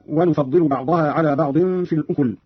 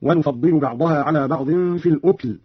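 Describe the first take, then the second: First: Said in the usual way. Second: الأكل said "al-ukl", no vowel after k; silent vowel on kaf. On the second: Shown as a demonstration. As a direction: close the k straight onto l in الأكل. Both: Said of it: "قرأ قالون بإسكان الكاف تخفيفا".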